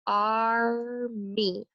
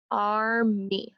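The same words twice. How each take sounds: First: "Army" drawn out slowly as ar, mee; syllable by syllable. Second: Said in the usual way. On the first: Shown as a demonstration. Teacher labelling syllable scoops, "Army" slowly stretched. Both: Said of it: "I label my scoop".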